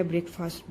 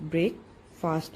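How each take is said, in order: First: Said in the usual way. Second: ब्रेकफास्ट slowly, with a break after ब्रेक; ब्रेकफास्ट split into two parts with a clear pause between them; broken into syllables. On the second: Shown as a demonstration. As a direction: teach ब्रेकफास्ट in two beats, ब्रेक then फास्ट. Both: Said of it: "इसमें जो आप ब्रेक ले रहे हैं".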